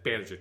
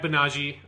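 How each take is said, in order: First: The name is said as English spelling suggests. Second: The name is said in a Japanese-style way. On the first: The speaker calls it wrong. "the character doesn't register to me" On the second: The speaker calls it right. "which is not the way that it's spelled"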